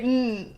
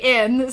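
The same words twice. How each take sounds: First: It is said as a bare 'n' sound. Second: It is said as the letter name, 'en'. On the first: The speaker calls it right. "Say N" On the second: The speaker calls it wrong. "don't say N"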